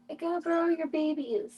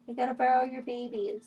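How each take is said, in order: First: Higher-pitched cooing to an animal; pet talk. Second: Said in the usual way. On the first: Real, not acted. Streamer asking the animal mom for her babies, pet talk. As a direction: lift it into sweet pet talk.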